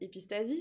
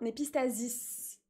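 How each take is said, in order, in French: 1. Le mot se termine par un son 'ee'. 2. Le mot se termine par un son 'iss'. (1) "mon médecin m'a repris, ce n'est pas" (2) "Voilà, ça se dit comme ça"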